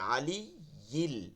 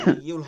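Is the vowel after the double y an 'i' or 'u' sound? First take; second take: i; u. First: The syllable after the y has an i vowel. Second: The syllable after the y has a u vowel. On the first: The speaker calls it right. "হ্যাঁ, আলী ইল, জের দিয়ে" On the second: The speaker calls it wrong. "হবে না, ইয়াতে পেশ হবে না"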